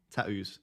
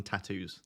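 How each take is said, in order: First: Tattoos with a crisp aspirated first T; Essex tattoos. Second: Said in the usual way. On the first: Shown as a demonstration. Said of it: "You'd have to pronounce the first T". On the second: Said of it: "Rather than tattoos".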